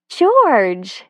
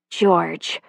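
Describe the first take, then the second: First: Called out higher and louder; startled at finding him; surprised. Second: Said in the usual way. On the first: A narrator's reading. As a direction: caught off guard by him.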